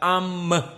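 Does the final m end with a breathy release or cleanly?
breathy. The final m ends with a puff of breath. The speaker calls it wrong. "tidak am keluar"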